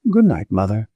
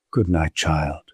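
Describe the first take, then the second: First: Light lilting good night, rising on good; a hesitant daughter lingering in the doorway; daughter's good night. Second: Lower, softer good night; a tired mother answering her daughter quietly; mother's good night. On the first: Nona saying good night to her mother, gently rising. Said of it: "Nona ... turned back". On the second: The mother answering Nona's good night, lower and soft. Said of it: "Missus Manford seemed to waver too". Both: A narrator's reading.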